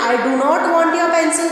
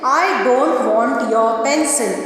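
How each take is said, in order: First: Do not is said as two full words. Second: Do not is contracted into one syllable, don't. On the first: The speaker calls it wrong. "थोड़ा सा गलत होता है" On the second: The speaker calls it right. "डू नॉट के बदले हम डोंट use कर सकते हैं।"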